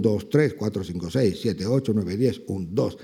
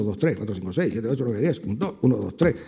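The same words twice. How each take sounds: First: Showing the class where the accent falls; counting with the accent. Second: Said in the usual way. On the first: Shown as a demonstration. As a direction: count "dos, tres ... diez, un, dos", leaning on the accented beats. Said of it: "El acento es". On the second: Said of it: "pues cuentan uno".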